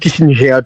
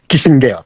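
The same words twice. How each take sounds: First: The name is said with an American pronunciation. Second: The name is said with a German pronunciation. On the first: "soit prononcé en américain" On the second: "On a prononcé en allemand"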